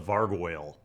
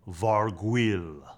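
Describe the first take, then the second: First: The name is pronounced the English way. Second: The name is pronounced the French way. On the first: "Maybe it's a" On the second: "I'm thinking of it in a French way, like"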